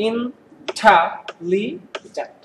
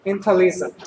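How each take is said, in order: First: intelligent very slowly, in four separate beats; syllable by syllable. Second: Said in the usual way. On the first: Shown as a demonstration. Teacher having students count syllables, intelligent split slowly into four. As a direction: break intelligent up, pausing after every syllable. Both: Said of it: "আমাদের syllable কয়টা".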